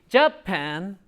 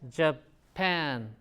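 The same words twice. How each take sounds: First: The stress is on the first syllable. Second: The stress is on the second syllable. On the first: The speaker calls it wrong. "So it's not the first one. It's not going to be Japan" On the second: The speaker calls it right. "Pan, right?"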